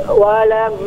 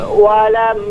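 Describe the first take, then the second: Both takes have the same delivery.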